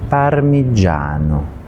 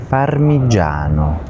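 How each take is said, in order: Both takes have the same delivery.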